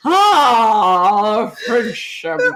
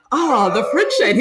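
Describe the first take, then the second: First: Long drawn-out "oh" into the slogan; drunk Orson Welles. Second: Said in the usual way. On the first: Retold or imitated. Repeating the ad line for her friend, drunk. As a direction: stretch it like a boozy pitchman. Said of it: "Orson Welles". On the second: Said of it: "they're expecting him to say".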